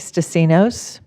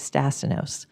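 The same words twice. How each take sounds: First: The stress falls on the final syllable. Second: The stress falls before the final syllable. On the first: It is the Greek way of saying the name. "with the accent on the end because that's the Greek way of saying it" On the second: It is the American way of saying the name. "the American way"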